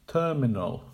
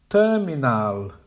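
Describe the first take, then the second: First: "Terminal" as TER-min-ul; correct with schwas. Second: "Terminal" with all syllables loud and full; incorrect, too strong. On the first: Teacher modelling the correct "Terminal". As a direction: keep the end of "Terminal" weak. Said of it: "Make the weak syllables quiet". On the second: Teacher modelling the wrong "Terminal". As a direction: hit every syllable of "Terminal" hard. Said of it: "the incorrect pronunciation". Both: Shown as a demonstration.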